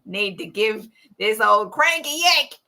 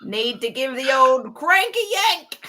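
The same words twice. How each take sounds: First: Put-on lightly done Australian accent; an Australian dad grumbling, played for laughs. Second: Thick male Aussie grumble; hardcore Aussie accent. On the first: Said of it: "I have to do an Australian accent for this". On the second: Acted. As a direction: put on a broad Australian bloke's accent. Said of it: "Hardcore Aussie".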